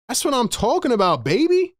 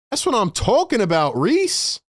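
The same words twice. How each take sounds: First: Pumped-up hype cheer; excited. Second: Excited. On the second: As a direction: pitch jumps on the name. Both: Real, not acted. Celebrating the shot.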